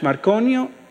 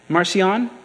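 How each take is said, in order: First: The C is pronounced as a hard K sound. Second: The C is pronounced as a soft S sound.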